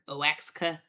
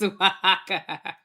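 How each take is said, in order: First: The x is sounded like 'ks'. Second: The x is sounded like 'h'. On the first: The speaker calls it wrong. "I was pronouncing it Oax, Oaxaca. That is not it" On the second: The speaker calls it right. "It's Oaxaca"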